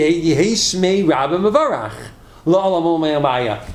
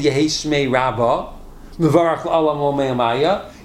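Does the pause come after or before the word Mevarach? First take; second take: after; before. First: There is a pause just after Mevarach. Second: There is a pause just before Mevarach. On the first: The speaker calls it right. "You say" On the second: The speaker calls it wrong. "You don't say"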